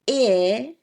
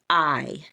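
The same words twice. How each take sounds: First: The vowel is short, as in bid. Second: The vowel is long, sounding like its name. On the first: "the short I sound" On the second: "it makes that vowel sound say its name"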